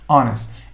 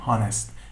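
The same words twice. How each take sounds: First: The word begins with no H sound. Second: The word begins with an audible H sound. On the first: The speaker calls it right. "The H is not pronounced. We say honest" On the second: The speaker calls it wrong. "we never say honest"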